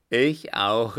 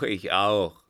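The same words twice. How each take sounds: First: Loud eager cry; shouted agreement. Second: Loud, falling echo of the cry; shouted agreement. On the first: Vagabonds joining in around the circle, shouting. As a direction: shout your agreement with the others. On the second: More vagabonds echoing the call, shouting. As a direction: join the chorus loudly. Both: A narrator's reading. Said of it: "erscholl es im Kreise".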